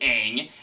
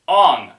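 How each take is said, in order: First: The name has the show's vowel sound. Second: The name has the movie's changed vowel sound. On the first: The speaker calls it right. "in the show, it's clearly Aang" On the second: The speaker calls it wrong. "he mispronounced the names"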